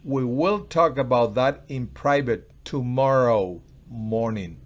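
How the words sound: The word tomorrow carries the strongest stress. It will happen tomorrow, not now. "No ahora, tomorrow"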